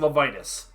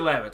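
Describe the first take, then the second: First: The name is said with three syllables. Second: The name is said with two syllables. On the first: This is a private habit from childhood. The speaker calls it wrong. "I grew up saying Levitas" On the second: This is the way everyone else says it. The speaker calls it right. "You say Lavitz"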